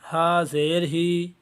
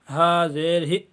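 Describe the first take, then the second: First: The final vowel is drawn out long. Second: The final vowel ends with an abrupt jerk. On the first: "ये भी गलत है।" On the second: "इसमें आखिर में झटका दिया जा रहा है"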